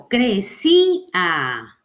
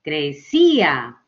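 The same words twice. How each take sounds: First: "crecía" very slow, the A split from the I; separated vowels. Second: "crecía" slow, with a long, strong I; stress on I. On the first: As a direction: break "crecía" into syllables, A on its own. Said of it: "la separo de A". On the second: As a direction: lean on the I in "crecía", then let A fall. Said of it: "con la I". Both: Shown as a demonstration.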